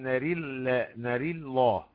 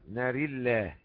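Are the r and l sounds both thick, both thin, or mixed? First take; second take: mixed; both thin. First: The r is thin and the l thick. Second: The r and the l are both thin. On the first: "وترقيق وتفخيم" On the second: "نقرأها بالترقيق في الراء واللام"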